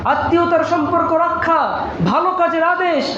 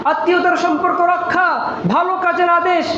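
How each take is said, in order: The two takes are said the same way.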